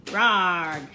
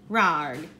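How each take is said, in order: First: Loud mock roar from Barbara; shouted roar. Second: Lower, loud monster roar; shouted copycat roar. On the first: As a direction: roar it out loudly. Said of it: "she shouted". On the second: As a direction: echo it as a deep roar. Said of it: "shouted the wobbler". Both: A narrator's reading.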